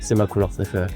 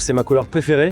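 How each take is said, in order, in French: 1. La hauteur descend à la fin. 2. La hauteur monte haut à la fin. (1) "C'est beaucoup plus stylé" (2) "quand je pars dans les aigus, je suis beaucoup moins intense"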